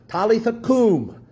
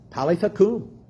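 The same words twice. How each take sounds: First: "Talitha koum" read slowly, Aramaic-style, stress on "koum"; slow, lifted "Talitha koum", "koum" stressed and falling; careful Aramaic reading of "Talitha koum"; Aramaic words. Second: "Talitha koum" with stress on "koum"; "Talitha koum" lifted a little, "koum" stressed; Jesus's own words "Talitha koum" set apart; Aramaic words. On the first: Acted. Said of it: "which means". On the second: Shown as a demonstration. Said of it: "this is what Jesus said".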